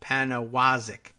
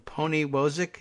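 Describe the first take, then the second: First: Panawazik said slowly as PAN-uh-WAH-zik; corrected pronunciation. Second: Poniwozik said as POH-nee-WOH-zik with a long o; Poniwozik, stressing POH and WOH; wrong guess at a name. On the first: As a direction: Panawazik with an a in the first syllable and an open ah. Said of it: "there's a pronunciation guide in the bio". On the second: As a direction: Poniwozik sounded out the way it is spelled, unsure. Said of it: "how does he say that?". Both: Shown as a demonstration.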